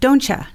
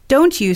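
First: The t and you merge into a 'cha' sound. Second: The words are pronounced separately and fully.

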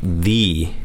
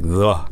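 First: The vowel is a long 'ee' sound. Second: The vowel is a short 'uh' sound. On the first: The next word starts with a vowel. "When the word that follows starts with a vowel, ... it sounds like the" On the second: The next word starts with a consonant. "But when followed by a consonant, ... it sounds like the"

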